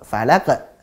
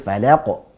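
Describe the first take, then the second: First: The final echo is thin and light. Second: The final echo is thick and heavy. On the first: The speaker calls it wrong. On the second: The speaker calls it right. "Tapi falaqo"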